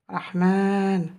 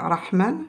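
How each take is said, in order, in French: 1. La deuxième voyelle est longue, tenue sur deux temps. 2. La deuxième voyelle est courte. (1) "C'est aussi un alif long" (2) "Au lieu de dire"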